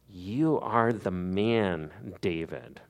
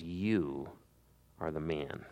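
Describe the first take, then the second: First: Slow, weighty, each word set down; You stressed in a slow, grave verdict; slow stern verdict. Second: Low, soft and hushed, pausing after You; a hushed, grave verdict; hushed accusation. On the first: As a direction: press the charge home slowly. Prophet repeats accusation to David. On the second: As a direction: lay the charge on him quietly. Prophet confronts the king. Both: Acted.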